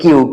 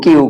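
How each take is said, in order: Both takes have the same delivery.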